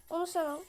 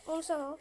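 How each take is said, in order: Both takes have the same delivery.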